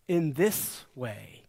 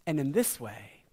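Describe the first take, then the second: First: "in this way" slowed right down, each word weighted; slow emphatic repeat. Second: Said in the usual way. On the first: Shown as a demonstration. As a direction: lean into "in this way", slow and deliberate.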